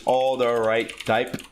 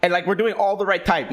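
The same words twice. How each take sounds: First: "All the right type" said slowly, each word set apart; slow spelled-out name. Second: Said in the usual way. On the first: Shown as a demonstration.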